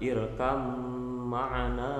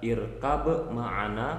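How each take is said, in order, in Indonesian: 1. Huruf b menyatu ke dalam m yang mengikutinya. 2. Huruf b dilepas dengan pantulan sebelum m. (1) "bisa dibaca irkam ma'ana" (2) "qalqalah normal"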